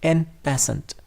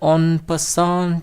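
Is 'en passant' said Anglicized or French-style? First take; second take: Anglicized; French-style. First: It sounds like 'en passent', read from spelling. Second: It sounds like 'on pasan', with nasal French vowels. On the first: This is how it is commonly said locally. "ইংরেজিতে যেভাবে বানান করা হয় সেভাবেই আমরা মানে বাংলা উচ্চারণ করি" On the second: This is the original language's pronunciation. "ওটার উচ্চারণ বোধহয় অন পাসান বা এই ধরনের কিছু হতে পারে"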